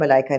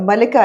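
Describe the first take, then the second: First: The middle vowel is a long 'ai'. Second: The middle vowel is a short 'i'. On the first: The speaker calls it wrong. "मलाइका नहीं है" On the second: The speaker calls it right. "मलिका है मेरे ख्याल है"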